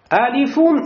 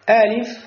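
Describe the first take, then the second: First: The name ends with an added -un sound. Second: The name ends without any added -un sound. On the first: "я прочитал вам каждую букву, то есть название буквы с танвином" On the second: "Теперь читаю каждую букву без танвина"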